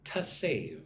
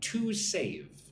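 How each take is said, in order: First: The word 'to' is reduced to a weak 'tuh'. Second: The word 'to' is said fully and clearly. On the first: The speaker calls it right. "It's more like to save" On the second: The speaker calls it wrong. "Notice how I don't say to save"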